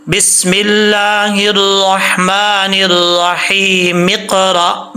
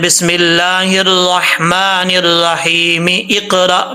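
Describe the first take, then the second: First: Slow recital that drops the hamza, so रहीम runs into इक़रा as रहीमिक़रा; correct joining. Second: Slow sung recital keeping the hamza: बिस्मिल्लाहिर्रहमानिर्रहीम इक़रा, with इक़रा cut off from रहीम; wrong joining. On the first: Teacher shows students the right way to join, slowly. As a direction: link the meem straight into क़ाफ, saying रहीमिक़रा with no hamza. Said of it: "मीम को क़ाफ से मिलाएंगे".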